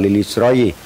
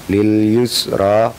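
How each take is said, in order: First: The word ends in an oyi sound. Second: The word ends in an a vowel. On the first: The speaker calls it wrong. "atau lil yusroyi" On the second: The speaker calls it right. "dibaca tetap"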